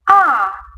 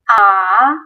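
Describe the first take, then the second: First: The pitch starts high and falls. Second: The pitch dips low, then rises. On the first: "falling tone. Ah, this tone you have start at the high position, go lower" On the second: "start at the normal position, go lower, then from here, go higher"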